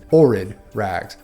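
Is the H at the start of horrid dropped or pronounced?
dropped. The H at the start is dropped.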